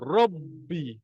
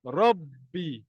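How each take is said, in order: First: The b is held before being released. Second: The same.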